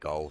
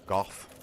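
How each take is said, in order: First: The name ends on an open vowel. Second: The name ends with an f sound. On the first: "I've always just said it Go" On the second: "Goff sounds weird to me"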